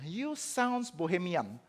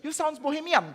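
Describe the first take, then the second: First: Drawn-out, slow English taunt; slow mocking accusation. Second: Much higher, sing-song English taunt; high mocking accusation. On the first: John Eck slowly taunting Luther in the debate. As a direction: stretch each word out slowly and coolly. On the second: John Eck teasing Luther, pitched high and mocking. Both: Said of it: "John Eck bilang gini".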